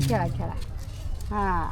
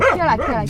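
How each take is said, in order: First: खेळा, खेळा said much lower and softer; soft coaxing. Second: Said in the usual way. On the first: Real, not acted. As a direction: murmur खेळा, खेळा gently to the dog. (खेळा, खेळा हळू, खालच्या आवाजात) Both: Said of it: "टायगर खेळा त्यांच्यासोबत".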